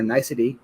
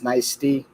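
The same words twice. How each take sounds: First: It sounds like the ordinary word 'nicety'. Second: It sounds like 'nice' plus 'tea'. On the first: The speaker calls it wrong. "I was calling her Nicety" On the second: The speaker calls it right. "apparently it's Nicety, like iced tea"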